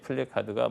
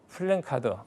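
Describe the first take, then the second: First: The second syllable has no n sound. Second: The second syllable ends with an n sound. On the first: The speaker calls it right. "니은 받침이 없는 그것이 플래카드가 맞습니다" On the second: The speaker calls it wrong. "플랜이 아니고"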